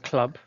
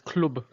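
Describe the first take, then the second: First: The word is said with an English accent. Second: The word is said with a Dutch accent.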